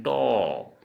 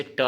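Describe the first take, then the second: First: टो as a long rounded "to"; Assamese letter pronunciation. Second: ट as "ta" with an unrounded vowel; curled-tongue ट, vowel open; Hindi letter pronunciation. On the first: Teacher recapping the Assamese sound, टो long and rounded. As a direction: round and stretch the vowel in टो. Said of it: "असमिया में उच्चारण करें". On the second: Teacher recapping for learners, ट with open vowel. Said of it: "फिर से मैं आप लोगों को". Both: Shown as a demonstration.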